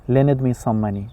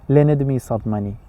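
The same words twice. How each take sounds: No difference in how they are said.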